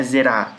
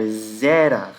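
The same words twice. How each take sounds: First: "zerá" stressed on the last syllable; "zerá" with a quick first syllable and strong RÁ; wrong final stress. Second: "zerar" as ZÉÉ-ra, long first syllable; "zerar" with long open ZÉ, ending falling away; stress on first syllable. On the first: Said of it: "a sílaba tônica não é z-, não é zerá". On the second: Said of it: "a sílaba tônica não é z". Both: Shown as a demonstration.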